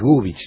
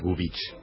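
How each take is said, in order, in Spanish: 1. El nombre se dice a la manera argentina. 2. El nombre se dice de una manera no argentina. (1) "el acento es argentino, o sea que es Gubich" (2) "no es Gubich"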